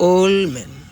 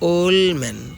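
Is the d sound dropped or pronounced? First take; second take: dropped; dropped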